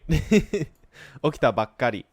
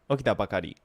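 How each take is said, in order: First: The k sound is held with a short catch. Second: The k sound is short with no catch. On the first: It sounds more casual and conversational. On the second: It sounds less casual.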